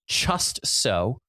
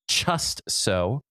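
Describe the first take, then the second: No difference in how they are said.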